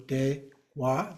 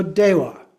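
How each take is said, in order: First: "dewa" slowly split into two syllables; divided syllables. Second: Said in the usual way. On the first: Shown as a demonstration. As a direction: say "dewa" in two slow, separate beats. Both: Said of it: "You just divide in the middle".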